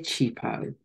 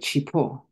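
First: The name is said without a Shona accent. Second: The name is said with a Shona accent. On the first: This is how the name's owner actually says it. "But I don't pronounce it that way. I say Chipo" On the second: This is how a native Shona speaker would say it. "With a Shona accent, I would say Chipo"

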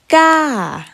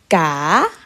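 First: The pitch falls over the syllable. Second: The pitch rises over the syllable. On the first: "Falling tone" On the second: "And rising tone"

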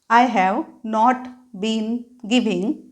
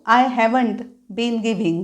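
First: Have not is said as two full words. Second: Have not is contracted into one word.

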